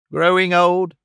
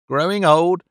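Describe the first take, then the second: First: A little louder and higher, disbelieving; incredulous cry. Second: A touch louder, disbelieving; incredulous cry. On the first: Panks rejects Clennam's notion, mildly incredulous. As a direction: repeat it in mild outrage. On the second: Panks echoes Clennam, mildly incredulous. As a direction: throw the phrase back at him in mild disbelief. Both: A narrator's reading. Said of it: "cried Panks".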